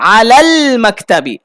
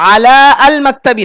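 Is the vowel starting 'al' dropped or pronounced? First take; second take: dropped; pronounced. First: The 'a' of 'al' is dropped and linked. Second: The 'a' of 'al' is pronounced separately. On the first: The speaker calls it right. "হামজা mute" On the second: The speaker calls it wrong. "আলা আল মাকতাবি না"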